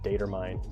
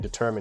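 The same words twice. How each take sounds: First: The word has an odd, unusual pronunciation. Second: The word has its ordinary, standard pronunciation. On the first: The speaker calls it wrong. "you'd be like determine. Like, why would you pronounce it that way?" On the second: The speaker calls it right. "instead of just saying determine"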